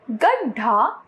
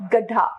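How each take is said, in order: First: गड्ढा with a heavy aspirated dh; wrong pronunciation. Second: Said in the usual way. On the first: Shown as a demonstration. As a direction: say गड्ढा as gad-dhaa, rising. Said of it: "अशुद्ध रूप". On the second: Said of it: "इसका शुद्ध रूप".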